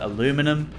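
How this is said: It is said with an American pronunciation. "if you're in the U S you call it aluminum"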